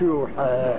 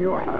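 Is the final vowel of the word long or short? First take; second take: long; short. First: The final vowel is drawn out long. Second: The final vowel is cut short. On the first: The speaker calls it wrong. "مش يوحى ... ليش مد" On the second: The speaker calls it right. "لم تحذف حرف"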